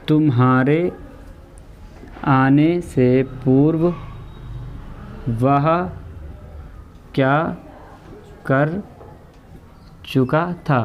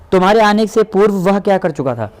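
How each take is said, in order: First: Very slow, one word at a time with long pauses; slow dictation. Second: Said in the usual way. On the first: Shown as a demonstration. Teacher dictating the sentence to students, slow word by word. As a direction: let each word land so the class can write it. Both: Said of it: "teacher reads then dictates".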